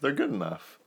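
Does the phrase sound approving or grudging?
approving. It sounds approving and confident. The team is truly good. "you can say it with like two different intonations"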